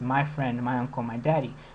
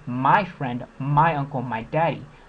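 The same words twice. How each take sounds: First: The word my is not stressed. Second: The word my is stressed each time.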